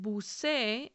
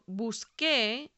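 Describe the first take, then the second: First: The consonant before the last vowel is an s sound. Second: The consonant before the last vowel is a k sound. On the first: The speaker calls it wrong. "Without that U, we get" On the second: The speaker calls it right. "sound right"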